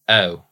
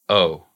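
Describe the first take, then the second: First: The vowel sounds tight and narrow. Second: The vowel sounds open and relaxed. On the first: "In Baltimore, it gets really, really tight and narrow" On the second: "in general American"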